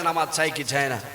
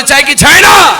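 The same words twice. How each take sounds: First: Quiet and low; subdued, lowered voice; low-key question. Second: High, shouted question; forceful preacher's call; loud demand. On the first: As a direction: put the question softly to the congregation. First take before louder call. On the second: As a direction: rouse the crowd to answer aloud. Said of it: "আওয়াজে বলে". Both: Real, not acted.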